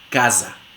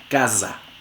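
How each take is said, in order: First: The middle s is voiced, with buzzing. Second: The same.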